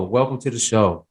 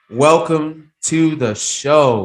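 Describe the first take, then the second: First: Said in the usual way. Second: Slow, loud announcer welcome; drawn-out booming welcome to the show; big welcome. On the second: Real, not acted. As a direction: roll it out like a show host. Host greets guest on air.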